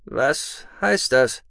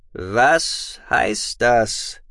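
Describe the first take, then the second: First: Slow and suspicious; lurking, wary. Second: Very slow, heavy demand; booming voice. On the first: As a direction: probe warily, drawn out. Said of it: "fragte Imra lauernd". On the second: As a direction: boom out each word. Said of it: "jetzt mit dröhnender Stimme". (mit dröhnender Stimme) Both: Acted.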